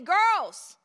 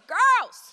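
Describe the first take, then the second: First: It is called out at a normal volume. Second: It is called out somewhat louder. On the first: A polite first request. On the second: The speaker is getting irritated.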